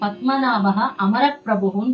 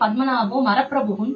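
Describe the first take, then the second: First: It is said carefully, with amara kept whole. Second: It is said quickly, run together as maraprabhu. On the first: Padmanabha is lord of the immortals. "பத்மநாபகா அமரப்பிரபுன்னு இருக்கும்" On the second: Padmanabha is lord of the trees. "நம்ம வேகமா சொல்றச்சே"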